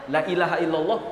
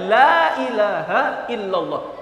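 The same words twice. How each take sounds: First: The first vowel is cut short. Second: The first vowel is drawn out long. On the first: There surely is a god besides God. The speaker calls it wrong. "Kalau dibaca cepat" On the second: There is no god but God. The speaker calls it right. "La artinya tidak"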